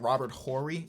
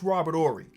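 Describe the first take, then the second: First: The H at the start of Horry is sounded. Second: The H at the start of Horry is silent. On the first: The speaker calls it wrong. "I be seeing people pronounce the H like" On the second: The speaker calls it right. "I'm pretty sure it's"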